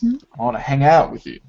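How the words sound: The stress falls on the words hang out. Hanging out is wanted, not another activity. "the focus of the stress is on the action"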